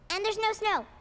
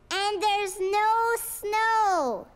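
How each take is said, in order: First: It is said at a softer volume. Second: It is said at a louder volume.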